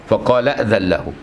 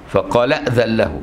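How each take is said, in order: No difference in how they are said.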